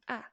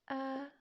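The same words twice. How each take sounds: First: The pitch falls quickly and sharply. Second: The pitch stays level and straight. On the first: "Second one is ah, ah, falling" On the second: "first one"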